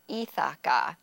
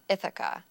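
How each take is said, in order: First: The last vowels are full and strong. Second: The last vowels are short, reduced schwas. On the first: The speaker calls it wrong. "sometimes with a fuller or stronger vowel" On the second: The speaker calls it right. "making more reduction and quick, short sounds"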